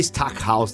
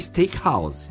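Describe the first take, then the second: First: The first syllable sounds like 'stack'. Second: The first syllable sounds like 'steak'. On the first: "mas pode ser Stackhouse também" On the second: "aí é Steakhouse"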